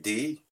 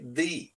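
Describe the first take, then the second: First: The word starts with a hard 'd' sound. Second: The word starts with a soft 'th' sound. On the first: The speaker calls it wrong. "my tongue was in the wrong place" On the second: The speaker calls it right. "say the"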